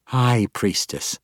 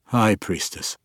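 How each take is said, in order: First: Cold correction. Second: A touch thinner, cowed; the old man repeating meekly; old drow giving in, slightly thinner voice. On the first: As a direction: spell out her rank slowly. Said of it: "Malice corrected". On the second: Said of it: "voice thinner". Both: A narrator's reading.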